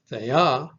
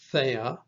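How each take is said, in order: First: Thea with the accent on final A; the-A, leaning on the end of Thea; stress on last syllable. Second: Thea with the accent on THE; THE-a, leaning on the start of Thea; stress on first syllable. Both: Shown as a demonstration. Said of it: "the only difference is in the accent".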